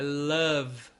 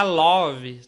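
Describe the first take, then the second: First: "love" with an A-like vowel and no final E, "lav"; correct pronunciation. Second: "love" said with an O vowel and an extra vowel at the end, "lóvi", loud; common wrong way. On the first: Teacher showing students the correct "love". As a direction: say "love" the right way, short and clean. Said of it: "quase um som de A". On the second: Teacher imitating how many students wrongly say "love". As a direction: imitate the learner's mistake in "love". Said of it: "Não é love que fala". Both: Shown as a demonstration.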